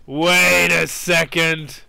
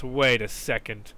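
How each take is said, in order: First: Stretched out, wary and slow; slow wary wait a second; slow suspicious. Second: Said in the usual way. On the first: Real, not acted. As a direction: drag it, sensing a trap. Suspects a trap.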